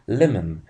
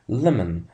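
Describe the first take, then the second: No difference in how they are said.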